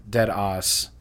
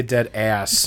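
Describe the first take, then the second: First: "dead ass" with a broad ah in "ass"; slow "dead ass", vowel backed to "ahss"; imitated accent. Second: "dead ass" with a flat front a in "ass"; "ass" with the vowel of "cat"; own pronunciation. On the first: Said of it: "So she says". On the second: Shown as a demonstration. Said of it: "And I say".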